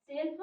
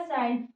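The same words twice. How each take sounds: First: Said in the usual way. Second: "सेल्फ" with the e opened into an "ai" glide; different vowel. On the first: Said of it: "हम लोग पढ़ दिए सिर्फ". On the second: Shown as a demonstration. Teacher reads the second spelling, gliding vowel in "सेल्फ". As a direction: widen the vowel in "सेल्फ" towards "ai". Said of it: "उसको पढ़ना पड़ेगा".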